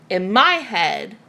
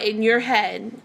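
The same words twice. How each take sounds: First: Slow, with "my" leaned on; stress on "my". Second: "your" said in passing, before a correction; stress on "your". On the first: Owning the feeling as her own, strong stress on "my". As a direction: correct it firmly to "my", drawn out. Corrects "your" to "my. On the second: Speaking generally of anyone who feels watched, light stress on "your". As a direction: say "your head" as the general case. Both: Real, not acted.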